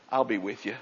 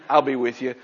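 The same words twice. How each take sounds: First: Hushed, gentle promise; soft reassurance. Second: Said in the usual way. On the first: Shown as a demonstration. God quietly reassuring Moses, soft and tender. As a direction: say it quietly, like a comfort.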